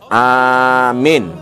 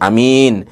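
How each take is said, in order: First: The first vowel is long, the second short. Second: The first vowel is short, the second long. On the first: It means believe or grant security. "memanjangkan A-nya, min-nya dipendekkan" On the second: It means a trustworthy person. "A-nya pendek, min-nya panjang"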